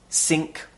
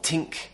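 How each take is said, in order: First: It starts with an s sound. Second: It starts with a t sound. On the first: "think as sink" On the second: "or tink"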